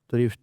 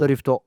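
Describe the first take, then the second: First: Said as a plain English word. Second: Extra vowels are added, Japanese style.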